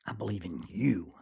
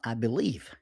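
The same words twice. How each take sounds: First: "you" is the peak, falling firmly at the end; stress on you. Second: Weight on "believe", with "I" left light; stress on believe. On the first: Speaker showing the right emphasis to listeners, stress on you. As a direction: land the sentence squarely on "you". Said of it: "the emphasis in the sentence is, is you". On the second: Speaker showing the wrong emphasis, stress on believe. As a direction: lean into "believe" as if that were the point. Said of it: "the emphasis in the sentence is not". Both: Shown as a demonstration.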